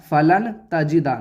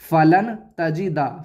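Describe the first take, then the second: First: The n sound is pronounced clearly. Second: The same.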